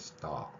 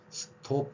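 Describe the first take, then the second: First: The vowel is an 'ah' with rounded lips. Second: The vowel is a plain rounded 'oh' sound. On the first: The speaker calls it right. "입 모양은 오인데, 아" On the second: The speaker calls it wrong. "스톱 대신에"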